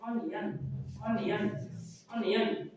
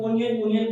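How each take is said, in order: First: अनियन with an uh, UN-yun; measured model अनियन, repeated with pauses; right pronunciation. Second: ओनियन with a long o; louder misreading, O-ni-yun for ओनियन; wrong pronunciation. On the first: Teacher drilling the corrected word, right pronunciation. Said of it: "right pronunciation होगा". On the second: Teacher quoting a habit since childhood, wrong pronunciation. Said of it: "लेकिन इसका right pronunciation". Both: Shown as a demonstration.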